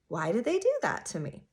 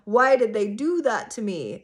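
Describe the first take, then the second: First: It sounds curious and wondering. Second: It sounds resentful and accusing. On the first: The speaker genuinely wonders about their reasons. The speaker calls it right. "More of like a, huh" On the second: The speaker feels wronged by them. The speaker calls it wrong. "But not from like a"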